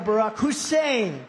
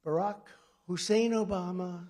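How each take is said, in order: First: Loud, slow mock yell leaning on Hussein; imitating a radio host stressing Hussein; imitated scream. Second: Said in the usual way. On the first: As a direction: bellow Barack Hussein, punching Hussein. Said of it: "he'd be screaming". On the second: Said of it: "So I'd go".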